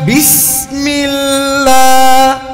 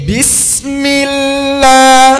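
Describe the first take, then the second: The two takes are said the same way.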